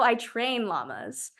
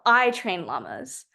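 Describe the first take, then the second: First: The stress is on the word train. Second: The stress is on the word I.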